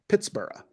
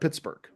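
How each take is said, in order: First: The ending sounds like 'burra', Scottish style. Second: The ending sounds like 'burg', American style. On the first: This is how it sounded when first founded. "gave Pittsburgh the Scottish treatment and pronounced the founded city like Edinburgh" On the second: This is how it is said today. "not Pittsburgh"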